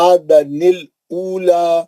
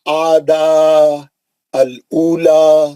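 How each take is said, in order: First: The words run together with a linking nun sound. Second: The first word stops before the second begins.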